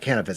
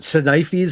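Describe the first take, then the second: First: The name is said the usual, common way. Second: The name is said in an exaggerated, odd way. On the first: This is how most people say it. The speaker calls it right. "Most people call it Canifis" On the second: It is a deliberate mispronunciation to provoke people. The speaker calls it wrong. "the most obnoxious pronunciation you could possibly come up with"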